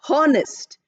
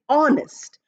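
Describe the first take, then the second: First: The word begins with an h sound. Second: The word begins with a vowel sound. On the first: The speaker calls it wrong. "we are not pronouncing honest" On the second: The speaker calls it right. "We are pronouncing honest. Or sound is there, which is a vowel sound"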